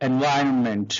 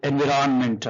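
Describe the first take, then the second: First: It is said with a native English pronunciation. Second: It is said with a Telugu-influenced pronunciation.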